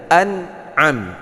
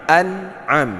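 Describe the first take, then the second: The two takes are said the same way.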